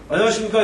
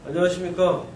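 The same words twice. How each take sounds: First: It is said crisply and with confident energy. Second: It is said hesitantly and without energy. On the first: The candidate seems prepared and self-assured. The speaker calls it right. "이렇게 딱, 딱, 이게 딱 부러져야지" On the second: The candidate seems unprepared and unsure. The speaker calls it wrong. "막 이렇게 어눌하게 어리버리하고 있어요"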